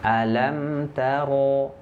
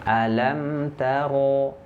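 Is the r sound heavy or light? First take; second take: heavy; heavy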